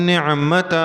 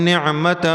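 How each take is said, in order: Both takes have the same delivery.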